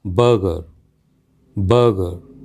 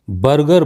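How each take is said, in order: First: बर्गर as "buh-guh", Rs silent; correct pronunciation. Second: बर्गर with both R sounds pronounced; common mispronunciation. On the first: Teacher modelling the word, correct non-rhotic pronunciation. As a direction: say बर्गर without sounding either r. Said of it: "इसका सही उच्चारण जो है". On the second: Teacher showing a common mistake, mispronounced with sounded Rs. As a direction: say बर्गर as "bar-gar", sounding each r. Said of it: "जो कि कहना बिल्कुल गलत है". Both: Shown as a demonstration.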